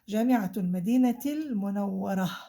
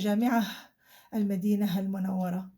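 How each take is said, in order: First: The first word ends with a t sound. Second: The first word ends with an h sound. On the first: The speaker calls it right. "I'm pronouncing the ta for this ta مربوطة" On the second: The speaker calls it wrong. "I don't say"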